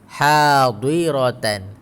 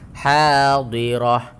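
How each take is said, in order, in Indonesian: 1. Kata ini berakhir dengan bunyi 'atan' yang penuh. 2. Kata ini berakhir dengan bunyi 'ah' yang pendek. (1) "Tapi ada yang kurang sedikit" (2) "kena buang titik dan baris"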